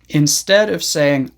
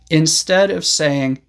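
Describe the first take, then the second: Both takes have the same delivery.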